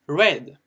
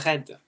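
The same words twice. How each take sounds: First: It is said with an English accent. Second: It is said with a French accent.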